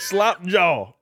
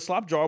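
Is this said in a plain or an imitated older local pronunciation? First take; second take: imitated; plain. First: It is said imitating an older local pronunciation. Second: It is said in the speaker's plain pronunciation.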